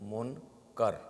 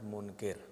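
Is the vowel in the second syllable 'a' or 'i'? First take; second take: a; i. First: The second syllable has an 'a' vowel. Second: The second syllable has an 'i' vowel. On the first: The speaker calls it right. "It is Nahi Anil Munkar" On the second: The speaker calls it wrong. "It is not Munkir"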